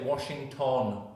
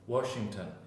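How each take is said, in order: First: The last syllable has a full, clear vowel. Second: The last syllable has a weak schwa vowel. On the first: The speaker calls it wrong. "you see the news in Spanish and they will say Washington" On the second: The speaker calls it right. "So it says uh and it's got a light stress"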